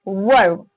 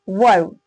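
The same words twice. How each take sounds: Both takes have the same delivery.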